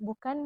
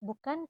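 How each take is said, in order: Both takes have the same delivery.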